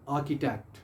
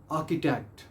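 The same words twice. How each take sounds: The two takes are said the same way.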